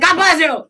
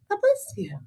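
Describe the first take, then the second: First: It is said loudly and wildly. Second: It is said softly and small.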